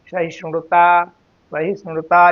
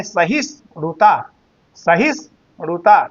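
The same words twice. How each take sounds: First: सहिष्णुता in one unbroken flow; joined pronunciation. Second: सहिष्णुता broken in two, सहिष् then णुता; separated written form. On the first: Teacher modelling spoken form, सहिष्णुता said joined. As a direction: glide from सहिष् into णुता in सहिष्णुता, no gap. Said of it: "लेकिन उच्चारण करते समय". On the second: Teacher showing how not to say it, सहिष्णुता said in pieces. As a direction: leave a gap inside सहिष्णुता before णुता. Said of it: "आप इसको ऐसे नहीं बोलेंगे". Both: Shown as a demonstration.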